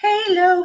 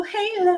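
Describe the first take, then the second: First: Sung, "Halo" said high and lilting; sung, announce "Halo" up high; sung, a little musical lift on "Halo"; sung name. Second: "Halo" again high but quieter, falling; a gentle falling repeat of "Halo"; softer echo. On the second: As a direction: echo "Halo" softly downward. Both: Shown as a demonstration.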